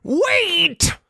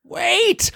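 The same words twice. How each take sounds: First: High Spike voice, falling at the end; Spike's desperate wait. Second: High call of wait; a first try at the line; plain take. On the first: Host redoes Spike's call to the mob, high and pleading. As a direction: redo the wait as the panicked dragon. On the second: Host first calls out to the mob, a high wait. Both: Shown as a demonstration. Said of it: "I mean".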